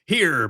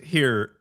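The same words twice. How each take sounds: First: It is said in an exaggerated character voice. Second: It is said in the speaker's ordinary voice.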